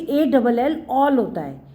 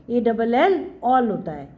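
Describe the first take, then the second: No difference in how they are said.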